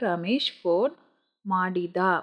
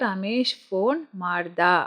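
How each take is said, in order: First: The last word keeps its middle vowel. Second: The last word drops its middle vowel. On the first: This is the standard form. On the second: This is the everyday spoken form.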